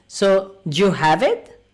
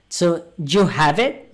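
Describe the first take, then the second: The two takes are said the same way.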